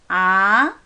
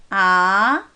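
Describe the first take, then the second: First: The pitch rises smoothly from the middle. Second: The same.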